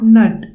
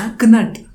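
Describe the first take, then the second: First: The word starts with an n sound, k silent. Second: The word starts with a sounded k before n. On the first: The speaker calls it wrong. "It's not nut" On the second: The speaker calls it right. "It's knut"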